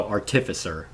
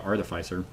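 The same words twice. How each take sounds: First: "artificer" stressed on the second syllable, ar-TIF-; narrator's pronunciation. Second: "artificer" with a long i, AR-tuh-fy-ser; own usual pronunciation. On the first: Retold or imitated. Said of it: "is how he pronounced it". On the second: Shown as a demonstration. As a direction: say "artificer" so the third syllable rhymes with eye. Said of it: "I always pronounced it artificer".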